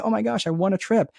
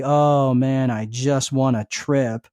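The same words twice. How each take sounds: First: Higher, bright burst of joy; mock-thrilled squeal; excited. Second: Slow, deflated mock-gloom; half-hearted sulky mumble; mopey. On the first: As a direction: sell it like the best news ever. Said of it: "You'd be excited about it". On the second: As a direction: drag it out like nothing good happened. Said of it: "walk around all mopey".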